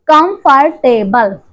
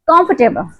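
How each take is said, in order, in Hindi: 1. यह शब्द में लिखा हर अक्षर बोलकर कहा गया है। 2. यह शब्द अपने स्वाभाविक, घटे हुए रूप में बोला गया है।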